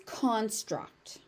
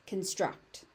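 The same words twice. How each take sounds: First: Slow "construct" as CON-struct; full open CON in "construct", stressed; stress on first syllable. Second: "construct" as con-STRUCT; weak first vowel in "construct", stress on STRUCT; stress on second syllable. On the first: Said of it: "As a noun". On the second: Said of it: "As a verb". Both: Shown as a demonstration.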